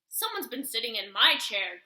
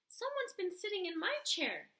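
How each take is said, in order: First: It is said in a huge, deep growl. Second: It is said in a tiny, small growl.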